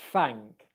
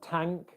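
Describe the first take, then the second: First: The word begins with an f-like sound. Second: The word begins with a t sound. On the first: "your bottom lip touching your top teeth. We don't want thank" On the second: "it's going to sound more like a t or a d. So we don't want tank"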